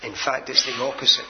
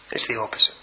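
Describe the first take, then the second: First: Said in the usual way. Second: Low breathy whisper for emphasis; hushed whispered repeat of the point; whispered echo. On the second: Shown as a demonstration. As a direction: whisper it back to the congregation. Whispered repeat of key phrase.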